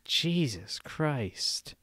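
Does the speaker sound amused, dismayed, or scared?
dismayed. It is said in a dismayed, sympathetic tone. Something embarrassing or unfortunate was just heard. "if someone tells you something embarrassing or unfortunate, you go"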